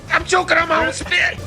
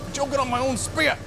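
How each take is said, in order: First: High, loud choked voice; choking, loud and high. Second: Strained, choking on saliva; choking on spit. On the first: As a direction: push it out while choking. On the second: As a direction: talk through a choke. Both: Real, not acted.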